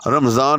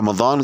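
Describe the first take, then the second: First: The middle consonant sounds like a z. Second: The middle consonant sounds like a d. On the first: The speaker calls it right. "रमज़ान ही जो है वो कहना चाहिए" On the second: The speaker calls it wrong. "रमज़ान कहने की बजाय"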